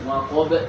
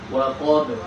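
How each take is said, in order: First: An extra e vowel follows the final b. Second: The final b ends with a slight bounce. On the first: The speaker calls it wrong. "bukan waqab, bukan dikasih ada huruf e-nya" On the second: The speaker calls it right. "dia ada pantulan sedikit"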